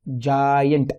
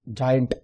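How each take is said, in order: First: "जायंट" stretched into जा and यंट; two slow beats on "जायंट"; syllable demo. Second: Said in the usual way. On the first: Shown as a demonstration. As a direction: draw out "जायंट" to show its syllables. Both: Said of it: "ये syllable होता क्या है".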